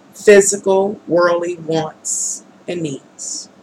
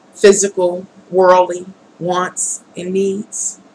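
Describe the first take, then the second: The two takes are said the same way.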